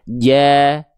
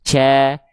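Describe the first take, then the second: First: The consonant is voiced with no breath leaking. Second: The consonant leaks a puff of breath. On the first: The speaker calls it right. "pastikan nempel" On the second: The speaker calls it wrong. "Kalau ada celah, nanti keluar si percikan-percikan nafas tadi"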